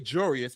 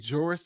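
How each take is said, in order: First: The word is said with three syllables. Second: The word is said with two syllables. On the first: "I'm probably going to say Jurius because that's what I've been" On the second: "for this conversation, I'll say Juris Doctor"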